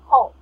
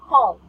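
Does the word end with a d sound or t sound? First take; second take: t sound; d sound. First: The word ends with a t sound. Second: The word ends with a d sound. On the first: The speaker calls it wrong. "if you say with a T sound" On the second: The speaker calls it right. "But if it's D"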